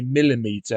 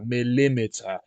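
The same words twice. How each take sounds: First: "millimeter" stressed on MIL; MIL-i-meeter, meter said in full; first-syllable stress. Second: "millimeter" stressed on LIM; mil-LIM-iter, leaning on the middle; second-syllable stress. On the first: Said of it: "emphasis on the first syllable". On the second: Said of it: "the emphasis on the second syllable". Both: Shown as a demonstration.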